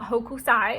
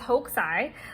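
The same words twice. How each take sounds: First: The u after the k is fully voiced. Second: The u after the k is nearly silent. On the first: The speaker calls it wrong. "I've been saying it wrong this whole time. It's not Hokusai" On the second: The speaker calls it right. "Like the U is basically silent"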